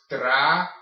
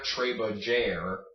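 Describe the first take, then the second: First: Trabajar syllable by syllable, j as an H; correct trabajar. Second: Trabajar with English vowels and hard English j; wrong trabajar. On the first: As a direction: break trabajar up, breathing the j like H. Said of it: "This is pronounced trabajar". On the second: Teacher shows what to avoid, anglicized trabajar. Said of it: "It's not trabajar". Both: Shown as a demonstration.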